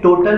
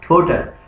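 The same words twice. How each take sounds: First: The first consonant has no puff of air. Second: The first consonant has a strong puff of air. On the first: The speaker calls it wrong. "अब ये total word नहीं है" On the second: The speaker calls it right. "क्या बन जाएगा"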